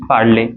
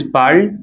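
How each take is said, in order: First: "parler" as two syllables, "par-lay"; final A sound. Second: "parle" as one syllable; present form parle. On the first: Teacher setting past against present, "parler" with sounded last vowel. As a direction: say "parler" ending in a clear "ay". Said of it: "A sound is coming there". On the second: Teacher setting present against past, "parle" with silent final e. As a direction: say "parle" stopping on the L. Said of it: "This is parle". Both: Shown as a demonstration.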